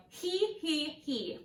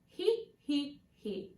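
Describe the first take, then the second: First: He he he with a spread, wide E. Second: He He He with a rounded neutral E. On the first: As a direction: smile the E wide. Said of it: "with a wide E". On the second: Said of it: "more round and neutral E". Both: Shown as a demonstration.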